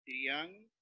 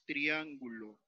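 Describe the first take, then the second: First: "triángulo" slowly broken into trián-gu-lo; syllable by syllable. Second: Said in the usual way. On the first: Shown as a demonstration. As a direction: say "triángulo" with a pause after each syllable. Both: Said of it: "Entonces, al separar".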